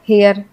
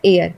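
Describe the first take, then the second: First: The word starts with an h sound. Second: The word starts without an h sound. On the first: The speaker calls it wrong. "इसको बोलेंगे आप हेयर" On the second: The speaker calls it right. "इसे हम बोलते हैं एयर"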